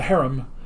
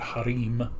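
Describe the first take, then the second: First: It is said with an ordinary English pronunciation. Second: It is said with an Arabic-style pronunciation.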